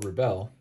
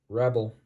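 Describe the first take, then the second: First: The stress is on the second syllable. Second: The stress is on the first syllable. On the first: It is the verb. "to a verb" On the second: It is the noun.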